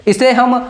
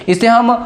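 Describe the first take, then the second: The two takes are said the same way.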